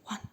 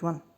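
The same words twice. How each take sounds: First: It is counted in a spooky ghost voice. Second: It is counted in a normal speaking voice.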